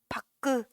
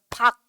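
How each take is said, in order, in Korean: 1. 이 단어는 모음 소리가 덧붙어서 끝나요. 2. 이 단어는 닫힌 자음 소리로 끝나요. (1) "박그 박그 이래 아니면 박 이래?" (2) "박 이렇게 표현이 되지"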